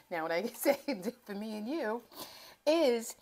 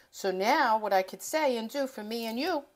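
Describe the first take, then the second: First: Softer take, "Now what I can say" broken by real laughs; laughing through it. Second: Rhythmic, sing-song phrasing that rises on "now"; poetic. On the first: Real, not acted. Host repeats her rhyme to viewers, giggling through it. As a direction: laugh at your own poetry. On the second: Shown as a demonstration. Cooking host turns her tip into a little poem, poetic lilt. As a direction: lay it out like a little rhyme. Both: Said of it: "now I'm getting a little poetic here".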